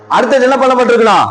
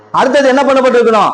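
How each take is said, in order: Both takes have the same delivery.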